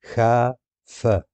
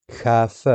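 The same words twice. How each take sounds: First: خاف drawn out very slowly; slow syllables. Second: Said in the usual way. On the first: Shown as a demonstration. Teacher splitting خاف into syllables, slowly. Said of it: "syllables drawn out". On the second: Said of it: "slow syllable demo".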